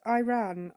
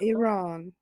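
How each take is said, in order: First: The word sounds like the phrase 'I ran'. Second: The word does not sound like 'I ran'. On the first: The speaker calls it wrong. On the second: The speaker calls it right.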